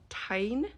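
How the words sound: The name is pronounced like an English word. The speaker calls it wrong. "when she calls Mira's dragon"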